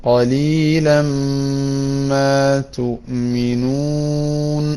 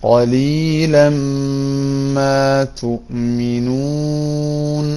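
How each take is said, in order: Both takes have the same delivery.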